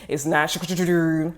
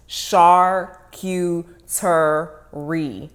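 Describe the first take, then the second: First: Charcuterie clipped short, syllables swallowed; the lazy everyday charcuterie; casual mispronunciation. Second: Charcuterie drawn out very slowly, every syllable; teacher spelling out Charcuterie; careful pronunciation. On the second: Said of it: "Three syllables". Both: Shown as a demonstration.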